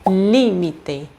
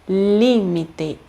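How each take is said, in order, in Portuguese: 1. A sílaba tônica está na antepenúltima sílaba. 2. A sílaba tônica está na antepenúltima sílaba.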